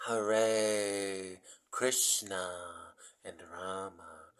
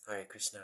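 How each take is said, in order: First: Very slow, each syllable stretched; really slowly. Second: Said in the usual way. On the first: Shown as a demonstration. Teaching dear souls the names, said really slowly. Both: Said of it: "I'll say the three names really slowly".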